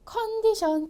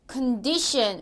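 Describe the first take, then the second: First: The middle syllable is not stressed. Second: The middle syllable is stressed. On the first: The speaker calls it wrong. "컨디션 이랬나요? 아니죠" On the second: The speaker calls it right. "가운데에 강세가"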